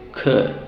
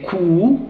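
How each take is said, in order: First: Could said with a short open uh; right short vowel. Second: Cou said with a long oo; wrong oo vowel. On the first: Teacher modelling the correct could. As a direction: keep could short and relaxed, no oo. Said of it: "but we say could". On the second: Teacher showing the wrong vowel in cou. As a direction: stretch cou into a long rounded oo. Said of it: "So we don't say cou". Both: Shown as a demonstration.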